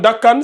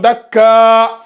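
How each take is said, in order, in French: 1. Le mot se termine par un son n. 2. Le mot se termine par une voyelle allongée. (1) "au lieu de lire dakkan dakkan" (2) "si on va faire une pause, on va lire"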